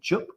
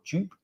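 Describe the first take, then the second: First: The vowel differs from the start of Jupiter. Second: The vowel matches the start of Jupiter. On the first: "Are you saying Jup or Jupe?" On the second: "Jupe would make sense because it's Jupiter"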